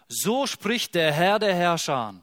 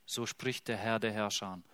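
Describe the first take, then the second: First: Louder, slow, weighty declaration; solemn proclamation. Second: Softer, lower, gentle declaration; hushed proclamation. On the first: Preacher reads the prophet aloud, booming solemn proclamation. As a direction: announce the Lord's word with full weight. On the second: Preacher rereads the prophet's formula, soft and reverent. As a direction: murmur the Lord's word reverently. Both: Acted.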